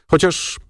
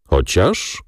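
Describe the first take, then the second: First: Said in the usual way. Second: Questioning echo. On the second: A narrator's reading. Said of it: "spytał ojciec".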